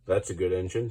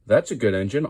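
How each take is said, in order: First: Kindly. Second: Said in the usual way. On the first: A narrator's reading. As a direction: praise a good engine gently. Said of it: "said the Fat Controller kindly". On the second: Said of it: "Fat Controller praises Percy, louder".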